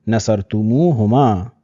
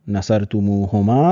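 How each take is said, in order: The two takes are said the same way.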